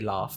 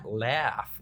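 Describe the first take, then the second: First: It is said in the speaker's usual accent. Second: It is said in an imitated American accent. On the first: "how do you Americans say laugh?" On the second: "how do you Americans say"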